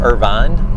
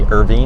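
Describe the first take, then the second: First: The second syllable has a full vowel. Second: The second syllable has a reduced vowel.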